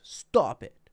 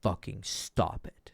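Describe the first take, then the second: First: Firm, loud parental "Stop it"; stern parent's "Stop it", a little louder; authoritative parent. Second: Slow firm "fucking stop it"; primal stop it. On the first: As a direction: scold like a parent to a kid. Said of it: "very authoritative tones". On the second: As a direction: lay down the law slowly. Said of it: "flavor of primal". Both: Shown as a demonstration.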